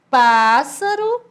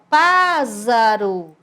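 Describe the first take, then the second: First: The middle consonant is a hissing S sound. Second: The middle consonant is a buzzing Z sound. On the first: "o som de S" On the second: "ele ia ficar com o som de Z"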